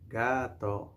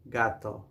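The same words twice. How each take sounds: First: "Gato" gently drawn out; say-along model. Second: Said in the usual way. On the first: Shown as a demonstration. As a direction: stretch both syllables of "Gato" for repeating. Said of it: "You can say it". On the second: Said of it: "we say".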